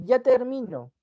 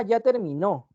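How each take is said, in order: First: "ya termino" slowly, as ya ter-MI-no, raised on MI; stress on middle syllable. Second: "ya terminó" slowly, as ya ter-mi-NÓ; stress on last syllable. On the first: Teacher showing the present tense, "termino" stressed on MI. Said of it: "es porque ya estás por acabar algo". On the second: Teacher showing the past tense, "terminó" stressed on NÓ. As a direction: drive the stress of "terminó" to the final NÓ. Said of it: "Es porque ya lo hizo". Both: Shown as a demonstration.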